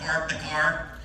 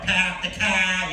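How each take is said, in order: First: The r in park is clearly pronounced. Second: The r in park is dropped, Boston style.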